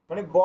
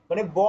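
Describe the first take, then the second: The two takes are said the same way.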